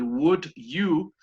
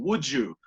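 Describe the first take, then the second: First: "would you" as two separate words; unjoined WOULD YOU. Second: "would you" run together as "woo-joo"; blended WOULD YOU. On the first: Teacher citing the two words for students, unjoined "would you". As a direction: say "would" then "you", not yet blended. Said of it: "cuando se juntan, se hace como". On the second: Teacher showing how the words join, blended "would you". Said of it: "Hay un sonido y por ahí al medio". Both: Shown as a demonstration.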